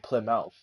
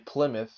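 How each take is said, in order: First: The ending is said fully, like mouth. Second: The ending is reduced and unstressed. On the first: The speaker calls it wrong. "you don't say Plymouth" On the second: The speaker calls it right. "when you say Plymouth"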